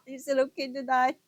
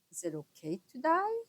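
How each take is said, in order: First: Laughing, higher and louder, quick. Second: Said in the usual way. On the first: Real, not acted. Adult laughing at her teenage question.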